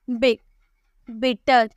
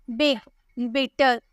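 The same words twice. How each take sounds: The two takes are said the same way.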